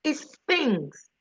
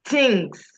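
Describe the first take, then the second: First: "things" with a soft th, the tongue between the teeth; "things" with a careful th sound; proper th in things. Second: "things" said as "tings" with a hard t; "things" with a plain t sound. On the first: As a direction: say "things" with a clear voiceless th. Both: Shown as a demonstration. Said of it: "It, it's T H I N G S".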